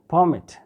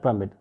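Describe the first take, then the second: First: The stress is on the first syllable. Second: The stress is on the second syllable. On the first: The speaker calls it right. "the stress will be on the first syllable" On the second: The speaker calls it wrong. "not permit"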